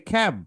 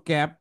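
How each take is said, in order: First: খ্যাব with an aspirated k; খ্যাব starting on breathy খ; correct pronunciation. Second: ক্যাব with a plain unaspirated k; ক্যাব starting on a hard, breathless ক; wrong pronunciation. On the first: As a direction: puff of air after the k in খ্যাব. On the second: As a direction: say ক্যাব with no puff of air after the k. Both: Shown as a demonstration. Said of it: "ভুল উচ্চারণ শিখছো".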